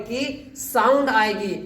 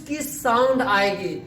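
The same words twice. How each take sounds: The two takes are said the same way.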